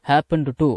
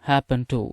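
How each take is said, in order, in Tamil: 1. 'happened' இல் d ஒலி தெளிவாகக் கேட்கிறது. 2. 'happened' இல் d ஒலி விழுங்கப்படுகிறது. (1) "அது நல்லா இருக்காது" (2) "ஹேப்பன் டு அப்படின்னு தான் உச்சரிக்கணும்"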